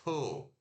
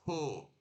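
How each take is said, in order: First: The T has a puff of air. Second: The T has a puff of air.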